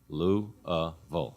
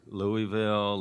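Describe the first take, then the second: First: The middle syllable is reduced to 'uh'. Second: The middle syllable is said fully. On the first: The speaker calls it right. "so it's Lou-uh-ville" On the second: The speaker calls it wrong. "Is it Louisville"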